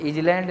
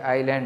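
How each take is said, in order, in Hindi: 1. यह शब्द z जैसी ध्वनि के साथ बोला जाता है। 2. यह शब्द z जैसी ध्वनि के बिना बोला जाता है। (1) "ये इजलैंड नहीं है भैया" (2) "ये आइलैंड है, इजलैंड नहीं है"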